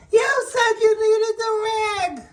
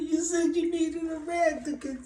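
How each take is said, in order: First: Put-on high childish helper voice, much higher; helper's voice. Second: High squeaky voice, softer, broken by laughter; laughing through it. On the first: Boss imitating his helper's defense in a high childish voice. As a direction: squeak it out like a clueless kid. Retelling the dripping rag mishap. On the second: Retold or imitated. Boss cracking up while mimicking the helper in a high voice. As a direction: try to say it but crack up laughing.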